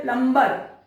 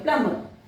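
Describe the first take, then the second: First: "प्लम्बर" with the b sounded; wrong pronunciation. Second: "प्लम्बर" with a silent b, /pləmər/; correct pronunciation. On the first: Retold or imitated. Teacher imitates how people say it, mock wrong take. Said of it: "बिल्कुल गलत है". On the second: Shown as a demonstration. Teacher models the right word, correct take. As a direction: drop the b in "प्लम्बर", plumm-er. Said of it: "यहाँ पर बी silent होगा".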